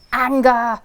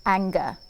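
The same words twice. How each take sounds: First: Anger! shouted much louder, falling hard at the end. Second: Said in the usual way. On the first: Shown as a demonstration. Naming the feeling to the children again, shouted loud. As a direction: bark the word Anger! out loud.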